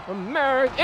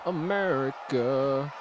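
First: America said quicker and higher; a brisk, higher America; perky America. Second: America said slow, lower and softer; drawn-out America. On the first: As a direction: pop America up higher and brighter. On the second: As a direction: stretch America out low and slow, savoring it. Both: Pretend. Savoring his character's country.

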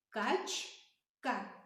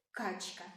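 First: Качка drawn out as кач-ка; syllable demo. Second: Said in the usual way. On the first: Shown as a demonstration. Teacher sounds out the word for the children, drawn out. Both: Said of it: "Вимовляємо".

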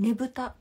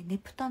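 First: ねぶた said with a voiced b, as the name to set aside; the other festival's name. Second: ねぷた said with a clear unvoiced p; correct festival name. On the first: Naming the other festival ねぶた with b, as the contrast. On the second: Correcting viewers: ねぷた with p, not ねぶた. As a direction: stress the p in ねぷた, the right one. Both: Shown as a demonstration. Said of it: "ねぶたじゃなくて".

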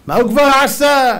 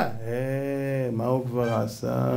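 First: High, loud scoff; indignant, belittling outburst; dismissive mock yell. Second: Quiet, lingering repeat of the scoff. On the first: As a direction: shout it as an ungrateful person would. Acts ungrateful person's dismissal. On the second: Acted. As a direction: let it sink after a long "eh". Repeats the dismissal low, drawn out.

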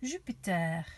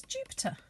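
First: "Jupiter" in French, zhü-pee-TAIR; French accent. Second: Said in the usual way. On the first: Shown as a demonstration. Teacher showing children how to say "Jupiter" with a French accent. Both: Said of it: "bit of a French accent".

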